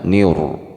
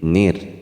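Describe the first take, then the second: First: The r sound is thick and heavy. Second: The r sound is thin and light. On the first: The speaker calls it wrong. "bukan niur" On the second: The speaker calls it right. "tipis saja"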